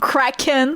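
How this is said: The word is pronounced with English sounds. "Is it kraken in English?"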